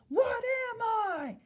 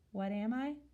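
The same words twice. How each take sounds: First: It is yelled loudly like an exclamation. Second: It is said flatly like a statement. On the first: The reader is exclaiming at someone. "have like an exclamation mark and yell it at someone" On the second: The reader is stating something. "say it like a statement that a period would have"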